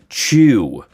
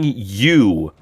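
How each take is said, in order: First: The word begins with a ch sound. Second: The word begins with a y sound. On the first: The speaker calls it wrong. "don't sing chew. It's not chew" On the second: The speaker calls it right. "When you sing you"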